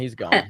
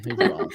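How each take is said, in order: First: Said in the usual way. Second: Squeaky high-pitched echo; high mock squeak. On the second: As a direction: jokingly squeak it back up high. Mock echo after "he's gone.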